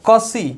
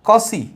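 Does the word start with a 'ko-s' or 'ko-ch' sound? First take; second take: ko-s; ko-s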